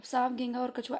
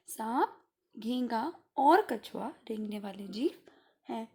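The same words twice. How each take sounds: First: "सांप घेंगा और कछुआ" run together without comma pauses; run-on list. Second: "सांप", pause, "घेंगा", pause, "और कछुआ"; pauses between list items. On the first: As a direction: rush past the gap between सांप and घेंगा. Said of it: "ऐसे थोड़ी बोलेंगे". ("सांप घेंगा और कछुआ" बिना रुके) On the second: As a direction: leave a clear gap after सांप and after घेंगा. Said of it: "बीच में ये गैप आ गया". ("सांप" और "घेंगा" के बाद अल्प विराम) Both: Shown as a demonstration.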